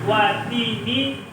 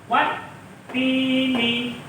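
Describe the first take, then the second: First: The t sound is short and single. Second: The t sound is held and doubled. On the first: The speaker calls it wrong. "Tidak boleh watini wazaitun. Itu salah" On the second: The speaker calls it right. "membacanya harus ditekan"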